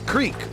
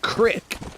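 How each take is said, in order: First: The word is said as 'creek'. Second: The word is said as 'crick'. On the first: This is how people say it up north. "up north where I'm from, everybody says creek" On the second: This is how the speaker's son says it. "my son keeps saying crick"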